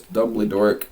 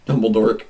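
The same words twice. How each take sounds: First: Said in the usual way. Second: "Dumbledore" hit loud with a hard k ending; loud, mocking emphasis on "Dumbledore"; punched name. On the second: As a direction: blurt "Dumbledore" loudly, ending it as "dork". Repeats the twisted name, punched.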